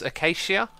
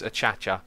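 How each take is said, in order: First: The word is said like the tree name acacia. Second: The word is said with a ch sound, achacha. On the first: The speaker calls it wrong. "Some people think it's uh, pronounced acacia" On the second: The speaker calls it right. "it is Achacha. It's been confirmed"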